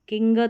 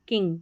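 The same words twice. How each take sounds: First: The g is sounded separately after the n. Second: The ending is one merged nasal ng sound. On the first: The speaker calls it wrong. "किंग तो नहीं बोलेंगे" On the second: The speaker calls it right. "N और जी का अंग करके उच्चारण हो रहा है"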